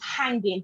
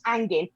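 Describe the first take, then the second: First: The H is pronounced at the start. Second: The H and the final G are dropped. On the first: Spending time with someone. "where you say the H" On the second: Something is disgusting. "you don't say the H and you don't say the G"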